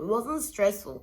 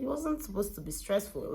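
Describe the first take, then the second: First: Wasn't punched louder, slowly; stress on wasn't. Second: Said in the usual way. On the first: Shown as a demonstration. Correcting herself about the cousin's job, stress on wasn't. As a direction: lean hard on wasn't, slower.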